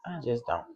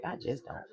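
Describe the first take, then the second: First: Said in the usual way. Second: Breathy whispered "I just don't". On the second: Real, not acted. Telling viewers she won't go empty-handed. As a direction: drop to a whisper.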